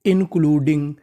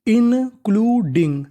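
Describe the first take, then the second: First: Said in the usual way. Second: इंक्लूडिंग slow and higher, split into syllables. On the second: Shown as a demonstration. Teacher sounds out the full word, syllable-by-syllable. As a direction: stretch इंक्लूडिंग piece by piece. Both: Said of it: "पूरी meaning".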